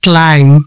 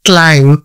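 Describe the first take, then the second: First: The final b sound is silent. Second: The final b sound is silent.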